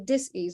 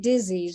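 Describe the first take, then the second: First: It is split into dis and ease. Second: It is said as one smooth word. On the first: It means living out of harmony, lacking ease. The speaker calls it right. "Say dis-ease. It's living out of harmony" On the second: It names an illness. The speaker calls it wrong. "Never, never say disease"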